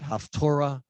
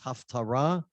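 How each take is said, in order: First: The middle syllable has an 'oh' vowel, 'tor'. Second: The middle syllable has an 'ah' vowel, 'tar'. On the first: The speaker calls it wrong. "Some you'll hear it haftorah" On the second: The speaker calls it right. "The correct pronunciation is haftarah"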